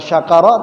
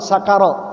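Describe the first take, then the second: First: The word begins with an sh sound. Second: The word begins with a plain s sound. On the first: The speaker calls it wrong. "Bukan syakara" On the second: The speaker calls it right. "tapi sakara"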